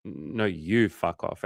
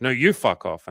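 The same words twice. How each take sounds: First: Slow, hesitant comeback; drawn-out, understated mock retort. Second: Higher, louder mock comeback; quick, raised-pitch retold retort; snappy retort. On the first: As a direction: stretch it out after a small stumble. Retold back-and-forth, his turn. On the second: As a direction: throw it right back, imitating her. Retold back-and-forth, her turn.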